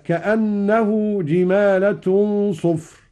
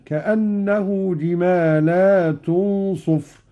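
First: "جمالة" singular, short ending; slow, raised "جمالة"; "جمالة" with no long a after lam. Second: Slow "جمالات" with a long a after lam. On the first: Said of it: "قوله تعالى". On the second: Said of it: "بمد اللام على الجمع هكذا". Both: Shown as a demonstration.

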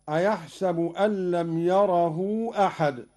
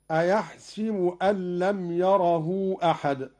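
First: أيحسب said "a-yahsabu"; fatha on sin. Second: أيحسب said "a-yahsibu"; kasra on sin. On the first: Teacher citing the second verse, أيحسب with "sa". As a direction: open the س of أيحسب to "sa". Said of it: "بكسر السين". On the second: Teacher showing Qalun's second example, أيحسب with "si". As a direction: narrow the س of أيحسب to "si". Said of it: "بكسر السين في الكلمتين". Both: Shown as a demonstration.

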